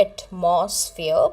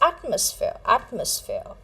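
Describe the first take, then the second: First: "atmosphere" drawn out as ut-MOS-feer; slowly misstress "atmosphere" on MOS; "atmosphere" with weak start and heavy middle; wrong pronunciation. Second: "atmosphere" as AT-mus-feer; front-stress "atmosphere" on AT; "atmosphere" with punched AT and light middle; correct pronunciation. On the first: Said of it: "how you pronounce this word". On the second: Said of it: "but it is atmosphere". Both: Shown as a demonstration.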